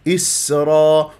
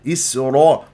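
First: The r sound is said without rounded lips. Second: The r sound is said with rounded lips. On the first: The speaker calls it right. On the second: The speaker calls it wrong.

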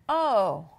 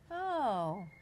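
First: It sounds angry. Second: It sounds pleased.

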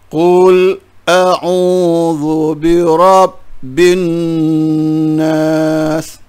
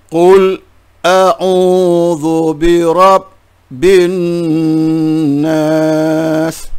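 The two takes are said the same way.

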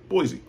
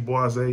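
First: The word is given a plain pronunciation. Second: The word is given a fancy pronunciation. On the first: The speaker does not want to sound sophisticated. "If you don't want to be fancy" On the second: The speaker wants to sound sophisticated. "if you want to be fancy"

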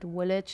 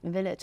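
First: The word begins with a W sound. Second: The word begins with a V sound. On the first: The speaker calls it wrong. "the W and the V, it was also like village. I sometimes said village" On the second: The speaker calls it right. "no, it's village"

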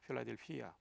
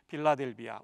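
First: The name starts with an aspirated p consonant. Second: The name starts with a plain unaspirated consonant. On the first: This is the original Greek reading. "헬라어 그대로 읽으면 필라델피아라고 발음하게 됩니다" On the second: This is the traditional Korean rendering. "우리말로는 빌라델비아라고 했죠"

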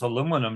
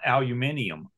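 First: It is said the American way, four syllables. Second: It is said the British way, five syllables. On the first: The product is made in the USA. The speaker calls it right. "Y'all already know it's USA made because it's aluminum" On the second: The product is not made in the USA. The speaker calls it wrong. "not aluminum"

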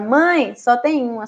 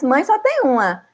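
First: There is a pause after 'mãe'. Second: It runs on with no pause after 'mãe'. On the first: Mom is told there is only one of something. "E agora" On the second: Everyone has only one mother. "Porque antes"

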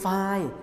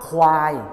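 First: The word starts with a plain f sound. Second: The word starts with a kw consonant cluster. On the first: This is the regional dialect pronunciation. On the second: This is the standard pronunciation.

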